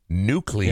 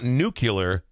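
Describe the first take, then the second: First: The ending sounds like "-clear". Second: The ending sounds like "-cular". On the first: The speaker calls it right. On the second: The speaker calls it wrong.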